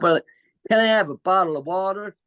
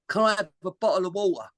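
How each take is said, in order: First: It is said in an American accent. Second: It is said in a Cockney accent.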